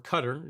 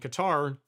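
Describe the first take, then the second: First: The name is said the local way. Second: The name is said the common English way.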